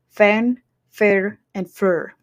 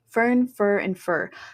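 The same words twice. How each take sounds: First: The three words have different vowels and rolled R's. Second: The three words have the same American vowel. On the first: "in Scottish English, it's going to be different" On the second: "In General American, ... they're pretty much the same"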